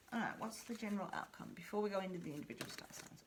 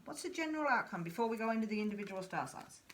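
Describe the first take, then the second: First: The question again, much softer and fast; much quieter. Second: Said in the usual way. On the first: Shown as a demonstration. Reader re-asking the question much more quietly to herself. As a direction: drop right down and ask it under your breath. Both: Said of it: "repeated question".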